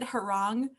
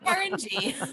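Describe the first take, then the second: First: It is said as one blended word. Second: It is said as a word plus a letter. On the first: This is how the owner says the name. "I pronounce it Harong" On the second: This is how others read the name. "It's Heron G"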